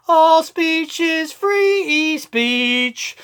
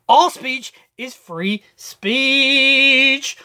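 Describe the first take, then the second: First: Slow raised slogan. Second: Slow drawn-out slogan. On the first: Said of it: "same slogan, higher take". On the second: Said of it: "same slogan, drawn-out take". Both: Shown as a demonstration.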